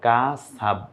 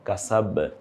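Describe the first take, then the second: First: The final b stops flat without echo. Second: The final b bounces out with an echo. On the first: The speaker calls it wrong. "কাসাব না" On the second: The speaker calls it right. "এই যে বাটা একটু বের হয়ে আসলো"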